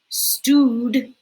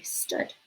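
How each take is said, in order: First: The vowel is long, as in food. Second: The vowel is short, as in good. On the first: The speaker calls it wrong. "that doesn't sound right" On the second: The speaker calls it right. "O O also says uh, like good"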